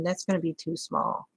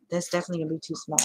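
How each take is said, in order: First: Said in the usual way. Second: Fast throwaway repeat; rushed repeat. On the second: Real, not acted. Crafter confirming the palm maker is too small, fast. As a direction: hurry through the confirmation. Repeats verdict faster second time.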